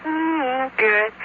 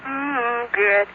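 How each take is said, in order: Both takes have the same delivery.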